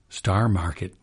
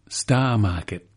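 First: It is said in an early English settler accent. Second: It is said in a local Cape Cod accent. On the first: "the original pronunciation of the Pilgrims" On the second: "She pronounced it so differently"

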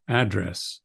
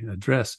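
First: The stress is on the first syllable. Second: The stress is on the second syllable. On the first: This is the American pronunciation. "American seems to favor the trochaic, the dum-dum" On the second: This is the British pronunciation. "British seems to favor the iambic, da-dum"

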